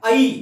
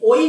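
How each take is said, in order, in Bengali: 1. স্বরধ্বনিটি খোলা 'a' ধ্বনি দিয়ে শুরু হয়: ai। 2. স্বরধ্বনিটি 'o' ধ্বনি দিয়ে শুরু হয়: oi। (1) "এই অ এবং ই এই দুটো মিলে উচ্চারণ হচ্ছে আই" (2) "ওই নয়"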